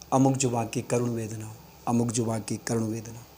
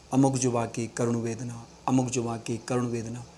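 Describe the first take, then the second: The two takes are said the same way.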